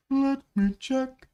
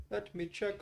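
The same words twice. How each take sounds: First: High, loud and slow; drawn-out call. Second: Said in the usual way. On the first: Pretend. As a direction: stretch each word out in a high call. Repeats it loudly, drawn out.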